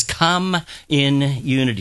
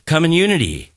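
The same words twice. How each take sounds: First: COME, IN, UNITY spaced out slowly; slow, separated words. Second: "Come in unity" run together quickly; quick demo for the congregation to repeat; even faster. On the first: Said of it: "Now say it a little faster". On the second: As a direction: say "Come in unity" faster, words nearly merging. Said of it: "Say it even faster". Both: Shown as a demonstration.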